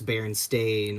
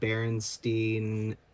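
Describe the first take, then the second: First: The last syllable sounds like 'stain'. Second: The last syllable sounds like 'steen'. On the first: "where it's B A R S T A I N" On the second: "like B A R S T I E N"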